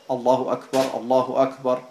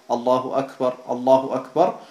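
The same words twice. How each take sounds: No difference in how they are said.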